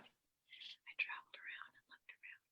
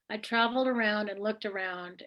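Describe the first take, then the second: First: It is said in a whisper. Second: It is said in a normal voice.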